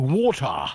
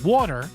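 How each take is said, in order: First: It is said in a thick South African accent. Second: It is said in the speaker's ordinary accent.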